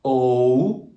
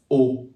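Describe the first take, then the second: First: O drawn out into OH-oo; slow anglicized O, closing to OO; English gliding O. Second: O as one steady OH, no glide; French O, stopped before any OO; pure French O. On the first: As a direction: stretch O with an English diphthong. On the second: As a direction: say a single rounded O. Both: Shown as a demonstration. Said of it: "usually only one sound for the vowel".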